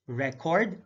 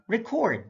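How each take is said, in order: First: RECord, short open REC, rising; careful demo of RECord; stress on first syllable. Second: ReCORD, high falling CORD; careful demo of reCORD; stress on second syllable. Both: Shown as a demonstration. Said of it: "stress is the verbal emphasis used".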